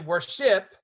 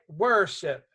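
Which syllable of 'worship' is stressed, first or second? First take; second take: second; first. First: The stress is on the second syllable. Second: The stress is on the first syllable. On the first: The speaker calls it wrong. "You don't say worship" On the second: The speaker calls it right. "The syllable that's emphasized is one"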